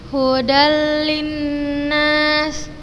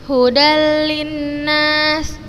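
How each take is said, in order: The two takes are said the same way.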